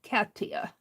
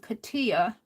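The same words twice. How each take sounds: First: The first syllable sounds like the word 'cat'. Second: The first syllable does not sound like 'cat'. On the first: The speaker calls it right. "more like a cat" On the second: The speaker calls it wrong. "I've been saying Katia"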